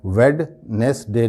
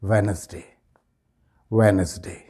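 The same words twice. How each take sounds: First: "वेडनेसडे" split as VED, nes, day; "वेडनेसडे" spelt out syllable by syllable; wrong pronunciation. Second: "वेडनेसडे" joined as VEN-es-day; low, fluent "वेडनेसडे", wenzday with silent d; correct pronunciation. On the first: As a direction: sound the first d of "वेडनेसडे". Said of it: "नहीं होगा". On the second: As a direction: drop the first d in "वेडनेसडे". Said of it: "सही pronunciation क्या होगा". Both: Shown as a demonstration.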